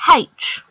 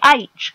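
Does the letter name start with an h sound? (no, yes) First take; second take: yes; no. First: It starts with an h sound. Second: It starts without an h sound. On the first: The speaker calls it wrong. "and not H" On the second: The speaker calls it right. "we say H correctly"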